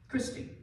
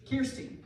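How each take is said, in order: First: "Christy" with the r before the vowel; "Christy", first syllable kris; name with CHRIS. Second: "Kirsty" with the r after the vowel; "Kirsty", first syllable keer, pitched slightly up; name with KEER. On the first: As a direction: say "Christy" starting KRISS. Trying out a name's pronunciation. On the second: Corrects the name just tried. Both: Real, not acted.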